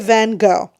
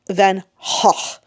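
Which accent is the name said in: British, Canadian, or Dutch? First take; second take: Canadian; Dutch. First: The name is pronounced the Canadian way. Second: The name is pronounced the Dutch way. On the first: This is how the speaker was taught. "Canadians say Van Gogh" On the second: This is the original language's pronunciation. "the actual Dutch is more like Van Gogh"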